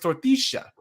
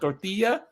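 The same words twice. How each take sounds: First: The double L is pronounced as sh. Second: The double L is not pronounced as sh. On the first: "in Argentina the double L makes a sh sound" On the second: "instead of"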